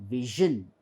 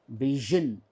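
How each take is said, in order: No difference in how they are said.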